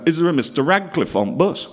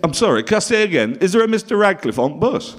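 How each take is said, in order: First: Put-on cheery Bolton accent, raised a little; a Lancashire holiday-camp host calling out; holiday camp host calls for Mister Radcliffe in a Bolton accent. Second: Put-on Bolton accent, louder and higher, a repeated call down the bus; a Bolton host calling out again, insistent. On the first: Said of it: "and he talked like that". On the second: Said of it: "He said".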